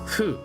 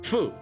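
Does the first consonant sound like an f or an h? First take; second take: h; f. First: The syllable starts with a soft h-like sound. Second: The syllable starts with a clear f sound. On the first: "they pronounce it as fu" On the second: "So like fu"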